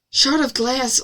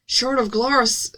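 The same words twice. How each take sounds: First: Said in the usual way. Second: "glass" drawn out with a rounded "aw" vowel; exaggerated pronunciation. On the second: A narrator's reading. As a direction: say "glass" slowly, like "glawss". Exaggerated glass, then repeats it normally.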